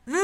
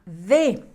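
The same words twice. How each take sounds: First: "D" como puro sonido consonante, sin vocal; sonido de la letra. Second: Said in the usual way. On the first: Shown as a demonstration. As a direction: haz solo el sonido de "D", sin decir "de". (fonema aislado de la "D") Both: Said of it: "que en el abecedario se llama D".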